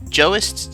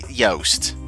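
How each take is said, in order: First: The name begins with a J sound. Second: The name begins with a Y sound. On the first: "I've always said it that way. That's wrong" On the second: "is it Yoast?"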